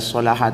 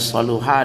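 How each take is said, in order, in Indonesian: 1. Vokal kedua adalah bunyi 'a'. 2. Vokal kedua adalah bunyi 'u'. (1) "ada yang membaca solaha" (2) "ada yang membaca saluha"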